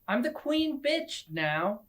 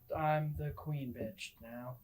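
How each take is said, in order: First: It is screamed loudly. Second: It is said confidently, without screaming.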